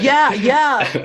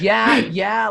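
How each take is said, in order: First: High, loud mock moans of pleasure; imitating a high, loud ecstatic yeah. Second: High, loud mock moans of pleasure; imitating ecstatic high yeahs. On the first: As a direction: ham up a tripping guy's ecstasy. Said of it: "And he's like". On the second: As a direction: ham it up again like a blissed-out tripper. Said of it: "And he says".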